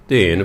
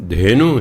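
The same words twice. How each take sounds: First: ਧੇਨ with no final vowel; Gurbani pronunciation. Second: ਧੇਨੂ with a long final oo; Hindi form. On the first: Teacher giving the Gurbani rule, ਧੇਨ ending on n. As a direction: stop ਧੇਨ on the n, no oo. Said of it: "ਧੇਨ ਬੋਲਦੇ ਹਾਂ". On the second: Teacher citing the Hindi word, ਧੇਨੂ ending in oo. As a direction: end ਧੇਨੂ on a full oo vowel. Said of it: "ਧੇਨੂ Hindi ਦਾ ਸ਼ਬਦ ਹੈ". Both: Shown as a demonstration.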